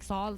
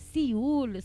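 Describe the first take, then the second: First: The name is said like English 'Saul'. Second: The name is said like 'See-ool'. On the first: The speaker calls it wrong. "I was calling him Saul for like a fucking month, cause I couldn't pronounce it" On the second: The speaker calls it right. "wait, it's Siul"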